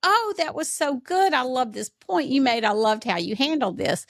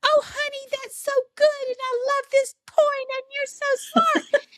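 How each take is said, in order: First: Praising mom. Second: Much higher, syrupy mock-praise voice of mom; son mimicking mom. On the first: Retold or imitated. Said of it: "I'd say". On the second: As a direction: parody mom's gushing praise, sing-song and high. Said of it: "he's imitating me".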